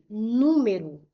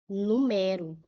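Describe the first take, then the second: First: The stress is on the first syllable. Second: The stress is on the second syllable. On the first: It is a noun meaning a number. "eu digo o número, é um substantivo" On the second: It is a verb meaning to number. "Como que nós lemos a primeira?"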